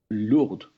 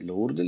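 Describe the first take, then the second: First: Some written letters are silent, French style. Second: Every written letter is sounded, Spanish style. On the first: "un francés lo diría Lourdes" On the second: "lo decimos nosotros"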